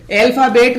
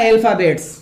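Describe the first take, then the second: First: अल्फाबेट with no s at the end; singular, wrong answer. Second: अल्फाबेट्स with a final ts; plural, correct answer. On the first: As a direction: stop अल्फाबेट on the t sound. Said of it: "अल्फाबेट नामक शब्द गलत है". (अल्फाबेट, आख़िर में बिना स के ट) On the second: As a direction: finish अल्फाबेट्स on an audible s after the t. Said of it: "और आंसर होगा अल्फाबेट्स". (अल्फाबेट्स, आख़िर में ट्स की साफ़ आवाज़) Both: Shown as a demonstration.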